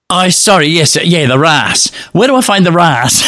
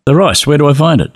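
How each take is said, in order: First: Sheepish apology. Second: Impatient repeat. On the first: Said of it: "and I'm going". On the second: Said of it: "And I said". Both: Retold or imitated.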